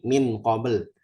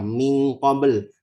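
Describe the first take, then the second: First: The n is pronounced clearly and fully. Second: The n is turned into an ng sound. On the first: "yang salah itu kalau kita baca idhar" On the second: "Jangan jangan semua ikhfa dibaca eng"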